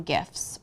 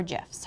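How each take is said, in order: First: GIFS with a hard G. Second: GIFS with a soft G, like "jifs". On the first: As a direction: say gifs with the G of "gift". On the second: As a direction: say gifs with a J sound at the start. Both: Shown as a demonstration. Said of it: "however you wanna say it".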